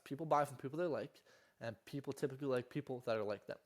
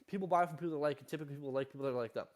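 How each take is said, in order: First: It is said more slowly. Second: It is said fast.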